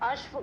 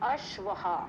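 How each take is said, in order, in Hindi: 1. शब्द के अंत में कोई अतिरिक्त 'ha' ध्वनि नहीं है। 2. शब्द के अंत में एक अतिरिक्त फूँकती हुई 'ha' ध्वनि है। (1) "अश्व गलत है" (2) "उसको हमें कैसे बोलना है"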